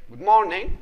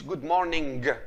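First: "morning" with no R and no hard final G; silent R. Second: "morning" with a hard, released G at the end; wrong hard final G. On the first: Teacher models the greeting for pupils, silent R. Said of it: "مانيش ننطق في الآر". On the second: Teacher shows what not to say, hard final G. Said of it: "ما نقولش". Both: Shown as a demonstration.

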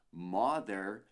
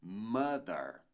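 First: "mother" with an open O as spelled and a clear final "er"; wrong MOTHER. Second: "mother" as MUH-der, slow and deliberate; correct MOTHER. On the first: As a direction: say "mother" like MAW-dehr, Brazilian learner's mistake. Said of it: "Não dizemos mother". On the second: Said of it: "mas sim mother". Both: Shown as a demonstration.

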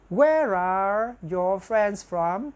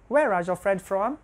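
First: Very slow, drawn-out words; slow model sentence. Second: Said in the usual way. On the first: Shown as a demonstration. Teacher models the plural question, very slowly. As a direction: stretch each word for learners.

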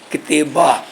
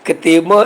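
First: ਕਿਤੇਬਾ ending in a plain open aa; without nasalisation. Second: ਕਿਤੇਬਾਂ ending in a nasal aan; nasalised ending. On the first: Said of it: "ਇਹ ਸ਼ੁੱਧ ਉਚਾਰਨ ਨਹੀਂ ਹੈ". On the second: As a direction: nasalise the last vowel of ਕਿਤੇਬਾਂ. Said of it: "ਇੱਥੇ ਕੰਨੇ ਤੇ ਸਾਨੂੰ ਬਿੰਦੀ ਲਾ ਕੇ". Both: Shown as a demonstration.

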